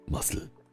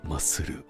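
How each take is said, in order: First: It is said with a German accent. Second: It is said with a Japanese accent. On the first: "in German it would be muscle" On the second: "in Japanese it would be masuru"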